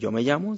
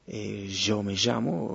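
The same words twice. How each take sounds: First: The ll sounds like English y. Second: The ll sounds like the s in measure. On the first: "En vez de decir yo me llamo" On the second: "se dice Y"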